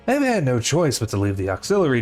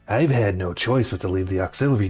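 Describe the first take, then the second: First: It is read in an ordinary voice. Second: It is read in a put-on shadow voice.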